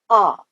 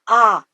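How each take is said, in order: First: The vowel is full, with a wide rounded mouth. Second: The vowel is narrow, with a restricted mouth. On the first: The speaker calls it right. "but ah, the rounded" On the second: The speaker calls it wrong. "Not ah"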